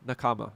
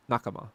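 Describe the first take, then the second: First: "Nakama" stressed on the middle syllable, na-KAH-ma. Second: "Nakama" stressed on the first syllable, NAH-kama. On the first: Streamer tries out a viewer's name, "Nakama" stressed na-KAH-ma. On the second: Streamer tries out a viewer's name, "Nakama" stressed NAH-ka-ma. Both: Shown as a demonstration. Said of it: "or Nakama?".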